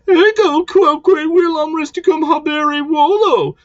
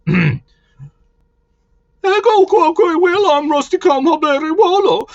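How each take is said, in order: First: It is read in the speaker's ordinary voice. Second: It is said in an imitated character voice.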